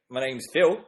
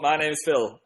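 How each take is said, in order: First: It is spoken in an Australian accent. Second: It is spoken in a northern English accent. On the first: "one more Australian" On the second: "Do a northern accent"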